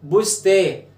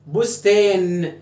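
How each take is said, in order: First: "بستا" ending on the long vowel, no n; nun removed. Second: "بستان" drawn out slowly onto a held n; final nun sounded. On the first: Teacher shows the word breaks, final nun dropped. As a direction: say "bustaa" with the last n missing. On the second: Teacher tests the word's original nun, final n held. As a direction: stretch "bustaan", sounding the last n. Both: Shown as a demonstration. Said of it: "شيل النون".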